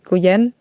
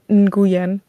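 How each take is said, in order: First: The name starts without an N sound. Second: The name starts with an N sound. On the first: "just leaving the N out" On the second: "when I need people to see that there is an N"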